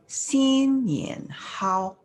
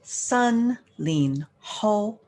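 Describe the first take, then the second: First: It is pronounced the Mandarin way. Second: It is pronounced the Cantonese way. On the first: "New Year goodness in Mandarin" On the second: "Now in Cantonese"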